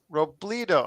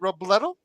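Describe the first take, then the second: First: The E is said as a long 'ee'. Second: The E is said as a short 'eh'. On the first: The speaker calls it right. "take the E and make it two E's" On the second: The speaker calls it wrong. "That unfortunately is not correct"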